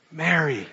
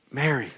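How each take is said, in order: First: Soft, tender call of her name. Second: Hushed, loving call of her name; tender name. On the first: Jesus gently calling Mary by name, tender and soft. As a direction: say it gently, full of love. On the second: Jesus speaking Mary's name, hushed and tender. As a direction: breathe her name softly. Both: Retold or imitated. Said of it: "says her name in a way that nobody else does".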